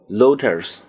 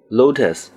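First: It has an added r sound. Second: It ends without an added r sound.

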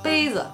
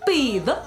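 First: Standard Mandarin, with the second syllable in neutral tone. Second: Qingdao dialect, with the pitch going up.

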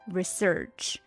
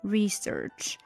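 First: The stress is on the second syllable. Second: The stress is on the first syllable. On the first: "当重音是第二个音的时候呢，它是发i 的短音" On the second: "当重音是第一个音节的时候呢，是re 发这个i 是发e 的音"

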